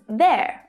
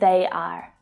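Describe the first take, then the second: First: It is said as one contracted syllable. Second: It is said as two full separate words.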